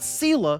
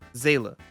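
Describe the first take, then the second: First: The name begins with an S sound. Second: The name begins with a Z sound. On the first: The speaker calls it wrong. "not Seela" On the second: The speaker calls it right. "It's German"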